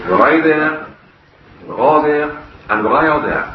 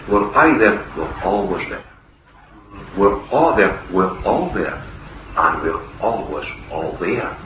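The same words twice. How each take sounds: First: Broad Scots. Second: Said in the usual way. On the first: Retold or imitated. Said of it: "tell you what he said in broad Scots". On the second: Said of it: "then I'll have to interpret it for you".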